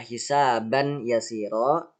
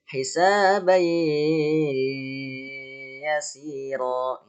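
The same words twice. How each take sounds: First: The n sound of the tanwin is clearly heard. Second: The n merges into the y, held three beats. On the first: The speaker calls it wrong. "Seharusnya yang dibaca" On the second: The speaker calls it right. "tapi dibacanya gimana? ... Dimasukkan dan ditahan selama tiga ketukan"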